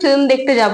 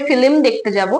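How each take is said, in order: First: The l and m are joined without a vowel. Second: A short i vowel splits the l and m. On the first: "আমরা বলি" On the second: "অনেকে বলে"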